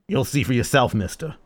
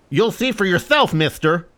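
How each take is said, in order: First: It sounds like a gruff old captain. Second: It sounds like a cheeky street urchin.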